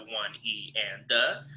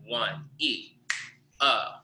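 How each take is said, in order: First: Said in the usual way. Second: Slow "one E", silent beat, then "uh"; third partial left out. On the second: Shown as a demonstration. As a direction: leave a gap between "E" and "uh". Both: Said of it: "take out the third partial".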